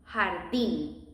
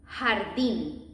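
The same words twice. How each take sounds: No difference in how they are said.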